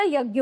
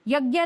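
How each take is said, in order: First: यज्ञ ending in a short "a"; correct pronunciation. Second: यज्ञ ending in a long "aa"; wrong pronunciation. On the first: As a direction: keep the final vowel of यज्ञ short. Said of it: "यज्ञ होता है". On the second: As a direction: say यज्ञ as "yagyaa". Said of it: "यज्ञ नहीं होता". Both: Shown as a demonstration.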